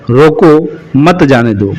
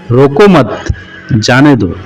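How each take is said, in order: First: "रोको" rising, a pause, "मत जाने दो" falling; pause after रोको. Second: Slow "रोको मत", a pause, "जाने दो" falling; pause after रोको मत. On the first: Teacher explaining the second sentence's meaning, pause after "रोको". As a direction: hold a clear break between "रोको" and "मत जाने दो". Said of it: "अल्प विराम का प्रयोग "रोको" के बाद किया गया है". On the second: Teacher explaining the third sentence's meaning, pause after "रोको मत". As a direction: keep "रोको मत" together, break before "जाने दो". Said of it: "रोको मत के बाद लगा हुआ है". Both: Shown as a demonstration.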